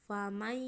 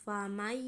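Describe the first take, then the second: The two takes are said the same way.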